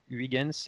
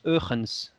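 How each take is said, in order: First: The name is said with French sounds. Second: The name is said with Dutch sounds. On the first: "je l'ai prononcé à la française" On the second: "en hollandais, j'ai vérifié, ça se prononce Eugens"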